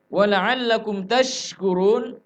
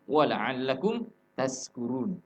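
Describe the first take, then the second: First: The last word has a 'sh' sound. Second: The last word has an 's' sound. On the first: It means you may be grateful. The speaker calls it right. "di ayat itu menggunakan lafaz shin" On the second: The meaning of the verse is ruined. The speaker calls it wrong. "makhrajnya ujung lidah. Ini fatal"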